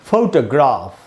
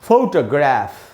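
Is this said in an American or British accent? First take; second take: British; American. First: It is said in a British accent. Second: It is said in an American accent. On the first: "इसका उच्चारण है British English में" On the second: "American उच्चारण होगा"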